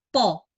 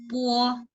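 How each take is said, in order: First: The o follows directly with no u glide. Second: A slight u glide comes before the o. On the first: The speaker calls it wrong. "Bukan bacanya uh, langsung baca po, po bukan" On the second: The speaker calls it right. "tapi ada u-nya sedikit"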